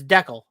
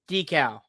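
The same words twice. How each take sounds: First: It is said the Canadian way. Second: It is said the American way.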